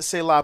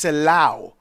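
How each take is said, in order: First: The word ends in an open ah sound. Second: The word ends in an ow sound. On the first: The speaker calls it wrong. "they pronounce it Selah, but actually, it's not pronounced Selah" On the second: The speaker calls it right. "it's actually pronounced Selau, like a O-W"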